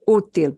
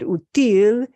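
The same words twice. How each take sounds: First: The stress is on the first syllable. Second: The stress is on the last syllable. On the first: The speaker calls it right. "we're punching the U" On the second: The speaker calls it wrong. "If you said útil, it would be like you saying easy"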